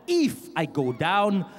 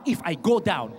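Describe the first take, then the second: First: IF punched and set apart, phrase slowed right down; stress on IF. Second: Said in the usual way. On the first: Shown as a demonstration. Singer warning the crowd he might go down, stress on IF. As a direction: hit the word IF, then take your time. Repeats with weight on if.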